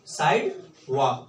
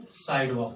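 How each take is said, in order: First: "side वॉक" said slowly, each part drawn out; slow repeat. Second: Said in the usual way. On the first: Shown as a demonstration. Teacher to class, drilling the American word slowly. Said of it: "क्या बोलेंगे". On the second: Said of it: "America में क्या बोलेंगे".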